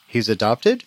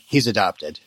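First: It is said as a question, rising. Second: It is said as a flat statement, falling.

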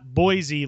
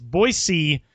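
First: The middle consonant is a Z sound. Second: The middle consonant is a hard S sound. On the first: The speaker calls it wrong. "like it's a Z" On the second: The speaker calls it right. "with like a hard S"

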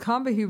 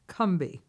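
First: The name is said with three syllables. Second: The name is said with two syllables. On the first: The speaker calls it wrong. "Not three syllables, but only two. ... And we were wrong" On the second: The speaker calls it right. "is actually pronounced Cumbie. ... only two"

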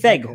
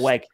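First: The word begins with a V sound. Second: The word begins with a W sound. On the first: "Is it Veg or Weg?" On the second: "Is it Veg or Weg?"

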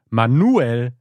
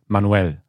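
First: The stress is on the syllable nu. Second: The name is said with Spanish stress. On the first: "da wurde das Nu betont" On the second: "auf Spanisch"

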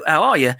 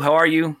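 First: It is read in a Liverpool English accent. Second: It is read in a plain American accent.

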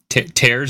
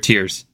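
First: The vowel rhymes with 'airs'. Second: The vowel rhymes with 'ears'. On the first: Something is being ripped. "Are we tearing the kingdom" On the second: Someone is crying. "are we tearing about the kingdom?"

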